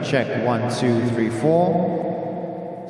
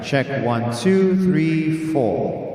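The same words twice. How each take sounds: First: The voice has reverb of a larger space. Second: The voice has reverb of a smaller space. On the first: "Bigger arena" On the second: "Smaller arena"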